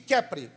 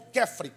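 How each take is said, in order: First: The middle consonant is a P sound. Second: The middle consonant is an F sound.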